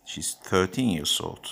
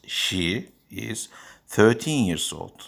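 First: She's thirteen, she is contracted to She's; contracted form. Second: She is thirteen said slowly; full form. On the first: (kısaltılmış söyleyiş) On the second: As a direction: pronounce she is in full, unhurried. (açık söyleyiş) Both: Shown as a demonstration.

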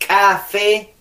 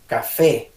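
First: "café" con K explosiva y separada; K marcada. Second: Said in the usual way. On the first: Shown as a demonstration. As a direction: haz estallar la primera consonante de "café". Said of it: "Con la K". ("café" con ka exagerada) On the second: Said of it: "Ahora, si tú dices".

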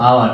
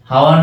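First: আওয়ার with a silent h, opening on the vowel; correct pronunciation. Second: হাওয়ার said with the h sounded; wrong pronunciation. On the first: Teacher gives students the correct hour. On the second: Teacher contrasts the wrong hour for students. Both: Shown as a demonstration. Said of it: "হাওয়ার না কিন্তু আওয়ার".

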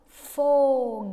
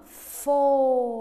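First: Foguete said loud, holding the fo; sounding out foguete. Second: Foguete loud, fo held long; sounding out foguete. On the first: Teacher making pupils listen to the fo in Foguete. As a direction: belt out Foguete to show the fo sound. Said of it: "Escuta, ó". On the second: Teacher confirming the fo sound in Foguete. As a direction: stress the fo of Foguete hard. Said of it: "ó". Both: Shown as a demonstration.

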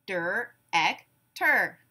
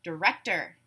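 First: "Der-ek-ter" in three slow, separate beats; syllable by syllable. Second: Said in the usual way. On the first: Shown as a demonstration. Class breaks the word apart together, syllable by syllable. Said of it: "break it apart into syllables". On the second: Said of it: "I will give you a word".

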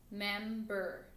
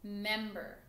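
First: "member" stretched into two beats; split into syllables. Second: Said in the usual way. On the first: Shown as a demonstration. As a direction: draw out "member" as mem, then ber. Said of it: "two syllables". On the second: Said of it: "Let's try the word".

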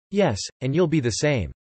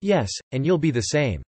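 Both takes have the same delivery.

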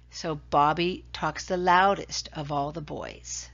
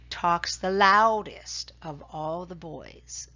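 First: Said in the usual way. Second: Loudest said slow and leaned on, each word spaced out; careful model sentence, loudest stressed; slow teaching stress. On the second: Shown as a demonstration. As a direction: spell it out slowly for the class, weight on loudest.

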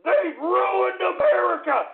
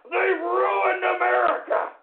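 First: High, loud and slow, leaning on ruined; slow angry yell. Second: Slow roaring repeat with They've loudest; shouted stress on THEY'VE. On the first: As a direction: drag every word out in outrage. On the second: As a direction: hit They've like an accusation. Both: Acted. Ranting host repeats his accusation.

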